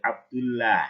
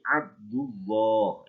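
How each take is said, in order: First: The l sound is thin, lips not pushed forward. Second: The l sound is thick, lips pushed forward. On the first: The speaker calls it wrong. "Nggak boleh" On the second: The speaker calls it right. "Tapi ... bacaan tafhim"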